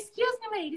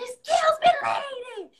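First: It is said softly and politely. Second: It is shouted loudly at her.

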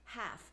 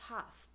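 First: The vowel is said with an American accent. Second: The vowel is said with a South African accent. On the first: "I had to learn to say half" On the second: "instead of half"

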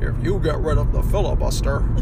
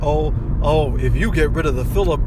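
First: It is said in a put-on imitation voice. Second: It is said in the speaker's ordinary voice.

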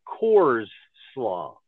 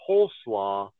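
First: The first syllable sounds like 'coors'. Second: The first syllable sounds like 'cole'. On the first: The speaker calls it wrong. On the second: The speaker calls it right.

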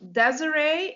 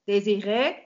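First: The name is said with an English pronunciation. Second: The name is said with a French pronunciation. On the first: "you pronounce it Desiree in English" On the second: "it's originally French"

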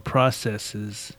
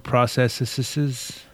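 First: The word is said without the extra syllable. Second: The word is said with an extra syllable. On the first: The speaker calls it right. "there should just be one more" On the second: The speaker calls it wrong. "I'll put an extra syllable in there"

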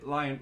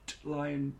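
First: No t sound is heard before lion. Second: A clear t sound is said before lion. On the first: The speaker calls it right. "We'd sort of just say Lion" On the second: The speaker calls it wrong. "Michael McIntyre does T Lion"

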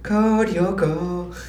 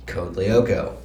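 First: The L at the start of Lyoko is silent. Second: The L at the start of Lyoko is pronounced.

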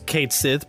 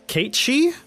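First: The second word ends with a 'th' sound. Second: The second word ends with a vowel sound. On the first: The name is said the way it is spelled. "it reads Kate Sith" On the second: The name is said the official way. "the official pronunciation, it's Kate Shee"

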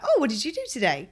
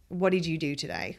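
First: It sounds light and curious. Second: It sounds pointed and demanding.

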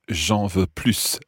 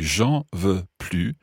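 First: The final S of plus is pronounced. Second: The final S of plus is silent. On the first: The speaker wants some more. "because you say the S, then it's positive" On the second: The speaker does not want any more. "if you don't say the S, you don't want any more"

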